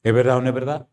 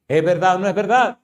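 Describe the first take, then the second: First: Said in the usual way. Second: "¿Es verdad o no es verdad?" higher, rising at the end; insistent question. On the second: Real, not acted. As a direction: press "verdad" upward, demanding an answer. Preacher repeats, pressing for answer.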